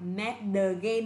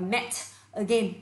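First: The T is a soft flap, like a quick D. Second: The T is a clear, crisp T sound. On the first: The speaker calls it right. "vì chữ T kẹp giữa hai nguyên âm chúng ta được quyền đọc là met again" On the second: The speaker calls it wrong. "Nhiều người đọc là met again, không cần các bạn ạ"

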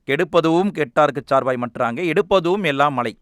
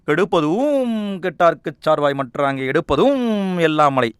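First: The verse is recited plainly without drawn-out vowels. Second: The verse is recited with drawn-out, melodious vowels. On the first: "உச்சரிக்கும் போதும் அப்படி தான் வரும்" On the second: "ஒரு ரைமிங்காக இருக்கா?"

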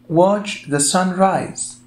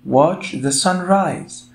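No difference in how they are said.

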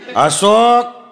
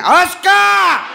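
First: The name is called in a sharp, stern tone. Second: The name is yelled harshly and angrily.

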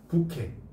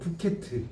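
First: The word ends in a vowel, no t sound. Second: The word ends with a pronounced t sound. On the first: The speaker calls it right. "이 모음담의 티는 다 발음이 안 돼" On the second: The speaker calls it wrong. "티를 안 쳐"

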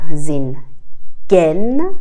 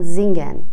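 First: The middle g is pronounced strongly and separately. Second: The middle g is pronounced very lightly. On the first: The speaker calls it wrong. "نمیگن زین گن" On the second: The speaker calls it right. "گه رو خیلی خفیف تلفظ میکنن"

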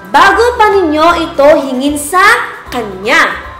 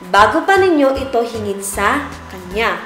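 First: It is spoken in a loud voice. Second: It is spoken at a normal volume. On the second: "Normal na boses"

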